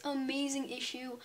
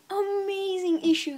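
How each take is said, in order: First: Said in the usual way. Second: High, loud, slow gushing praise; excited. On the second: Real, not acted. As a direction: stretch it out with real excitement.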